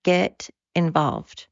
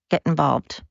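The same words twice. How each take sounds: First: Slow, drawn-out urging; slow, deliberate second call; slow emphatic repeat. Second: Said in the usual way. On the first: Real, not acted. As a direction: lean on it slowly this time. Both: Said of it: "repeated call to action".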